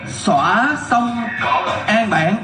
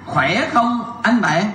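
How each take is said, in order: First: The first two words begin with an 's' sound. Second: The first two words begin with a 'kh' sound.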